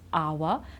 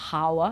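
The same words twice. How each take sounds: First: The word starts with no H sound. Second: The word starts with an H sound. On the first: The speaker calls it right. "When we don't pronounce the H" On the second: The speaker calls it wrong. "It's not our"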